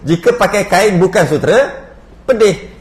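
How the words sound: There is a pause before pedih.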